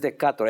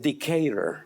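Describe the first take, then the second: First: It is read with Spanish sounds, as spelled. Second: It is said with English sounds and stress. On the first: The speaker calls it wrong. "no es Decatur" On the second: The speaker calls it right. "es Decatur"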